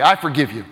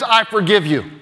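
First: Low, offhand sarcasm; sarcastic. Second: Said in the usual way. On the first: Shown as a demonstration. Pastor showing hollow words of forgiveness, mildly sarcastic. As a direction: say it insincerely, pitch dropped. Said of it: "say them sarcastically". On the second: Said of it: "just say the words".

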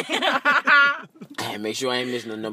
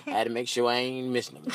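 First: Said through a laugh; cracking up while repeating it. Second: Said in the usual way. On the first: Shown as a demonstration. Comic repeats his line to the room while laughing. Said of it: "repeated through laughter". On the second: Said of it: "repeated line, laughing take".

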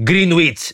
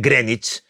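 First: Greenwich said as GREEN-wits, with the w sounded; spelling pronunciation. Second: Greenwich said as GREN-itch, with silent w; correct English pronunciation. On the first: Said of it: "πώς στο καλό να προφέρεις". (Greenwich όπως γράφεται, «Γκρίνγουιτς») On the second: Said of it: "ενώ είναι Greenwich". (Greenwich χωρίς w, «Γκρένιτς») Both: Shown as a demonstration.

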